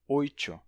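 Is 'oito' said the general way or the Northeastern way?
Northeastern. It is said with the Northeastern regional pronunciation. "alguém de algum lugar do Nordeste dizer oito"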